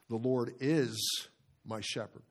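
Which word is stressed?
is. The stress falls on "is".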